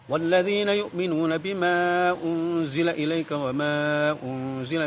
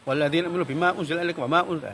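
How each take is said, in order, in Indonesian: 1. Vokal panjang dibaca dengan panjang penuhnya. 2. Vokal panjang dipotong pendek. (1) "Umpamanya mat" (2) "itu rusak bacaannya"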